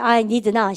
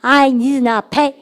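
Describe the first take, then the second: First: Said in the usual way. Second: Very slow, every word stretched; slow drill. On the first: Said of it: "해보세요". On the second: Shown as a demonstration. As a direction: draw it out for the class to copy. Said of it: "시작".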